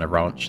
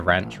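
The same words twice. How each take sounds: First: It is said with a British pronunciation. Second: It is said with a non-British pronunciation. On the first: "that I would usually say" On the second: "tried calling it"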